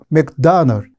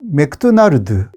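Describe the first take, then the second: First: It is said with an English accent. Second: It is said with a Korean accent. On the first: "실제로 영어로 하면 ... 맥다널 이런 식으로 말하니까" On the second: "맥도날드 이것도 잘 발음을 못하거든요"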